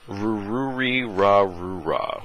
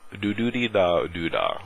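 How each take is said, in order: First: It is said with an American English accent. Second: It is said with a Japanese accent. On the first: "if you say this in American English" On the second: "if in more of a Japanese accent"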